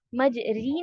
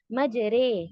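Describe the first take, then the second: First: مج ری with a plain long "ee" after the r; wrong full kasra. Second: مج رے with a long "ay" between "aa" and "ee"; tilted imala vowel. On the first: Teacher showing students the reading to avoid, wrong full kasra. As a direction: say مج ری with a full "ee", untilted. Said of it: "نہیں پڑھیں گے". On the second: Teacher modelling the tilt for students, imala vowel. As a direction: tilt مج رے to a held "ray". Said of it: "اس کو آپ tilt کریں". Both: Shown as a demonstration.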